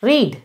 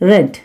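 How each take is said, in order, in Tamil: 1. உயிரொலி நீண்டது, 'reed' போல. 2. உயிரொலி குறுகியது, 'red' போல. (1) "இந்த இடத்துல ஐ ரீட் அப்படின்னா நான் வாசிக்கிறேன்" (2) "ரீடோட பாஸ்ட் ஃபார்ம் என்ன அப்படின்னா ரெட்... உச்சரிப்பு மாறும்"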